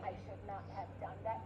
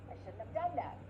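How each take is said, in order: First: Every word is said fully, without reduction. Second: The words are contracted and reduced, with one key stress. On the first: The speaker calls it wrong. "we don't say" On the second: The speaker calls it right. "We say, ... we're reducing other words"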